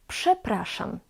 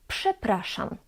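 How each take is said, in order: The two takes are said the same way.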